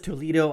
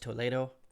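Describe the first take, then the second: First: The name is said with English-style pronunciation. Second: The name is said with Spanish-style pronunciation. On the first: "It says" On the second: "The correct Spanish pronunciation"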